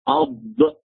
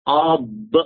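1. الصوت d مفخم ثقيل. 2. الصوت d مفخم ثقيل.

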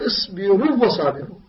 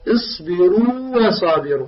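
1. الواو الأولى لا تُمد. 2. تُمد الواو الأولى بمدها الطبيعي. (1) "لا تقول ... خطأ" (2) "أعطي ما الطبيعي للواو الأولى هكذا"

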